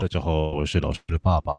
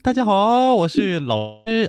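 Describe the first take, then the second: First: It is said in the father's voice. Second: It is said in the teacher's voice.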